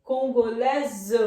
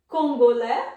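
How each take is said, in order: First: Congolese loud and slow, ending "LÈ-zuh"; French feminine pronunciation. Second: Loud French Congolês ending in "lè"; silent final S. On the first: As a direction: stretch Congolese to "kon-go-LÈ-zuh". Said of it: "mas agora a gente vai". (Congolese devagar e forte, com Z final) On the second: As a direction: say Congolês loudly as "kon-go-LÈ". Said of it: "Também não pronunciamos o S". (Congolês bem forte, sem S final) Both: Shown as a demonstration.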